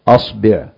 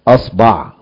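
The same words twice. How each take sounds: First: The vowel after the b is i. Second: The vowel after the b is a. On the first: "الفتح والضم والكسر" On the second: "مع فتح الهمز يكون الباء فيها الثلاثة"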